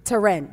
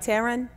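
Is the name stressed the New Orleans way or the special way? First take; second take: special; New Orleans. First: The name carries its stress in the special place. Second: The name carries the stress placement of New Orleans speech. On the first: The speaker calls it right. "Say it properly, though, for me. It's Taryn" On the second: The speaker calls it wrong. "New Orleanians don't want to go to that trouble. We just want to be like"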